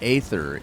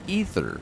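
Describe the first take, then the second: First: The word begins with a non-'ee' vowel sound. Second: The word begins with an 'ee' vowel sound. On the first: The speaker calls it wrong. "I kept mispronouncing that. I called it" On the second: The speaker calls it right. "It's ether. At least that's how it's pronounced in the game"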